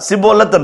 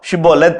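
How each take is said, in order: First: The word begins with an s sound. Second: The word begins with an sh sound. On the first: The speaker is an outsider. The speaker calls it wrong. "வார்த்தையை சரியால் உச்சரிக்க முடியாது" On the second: The speaker belongs to the group. The speaker calls it right. "அழகாய் சொல்லுவான். ஷின்னை யூஸ் பண்ணுவான்"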